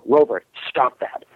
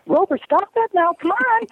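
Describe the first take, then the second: First: "Rover, stop that" level, dropping on "that"; firm falling command, growl-like ending on "that"; man's downward command. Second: Very high mock-female pleading with the dog; lifted, whining voice. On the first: Man commands his dog Rover, voice going down on "that". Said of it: "he's hearing this growl". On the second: Woman tells Rover to stop, high whining imitation. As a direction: squeal it high up, hurt and whining. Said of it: "when you lift your voice up". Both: Shown as a demonstration.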